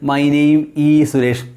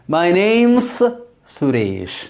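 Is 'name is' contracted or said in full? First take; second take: full; contracted. First: The words 'name is' are said in full. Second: The words 'name is' are contracted to 'name's'. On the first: The speaker calls it wrong. "don't say" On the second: The speaker calls it right. "That's better English"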